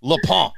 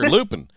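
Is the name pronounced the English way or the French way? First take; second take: French; English. First: The name is said with a French pronunciation. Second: The name is said with an English pronunciation. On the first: "But I would say Lupin" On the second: "As people would say here"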